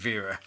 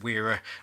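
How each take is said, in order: First: The name begins with a V sound. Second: The name begins with a W sound. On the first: "this is probably pronounced Vera" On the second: "I see the W as a W and not a V"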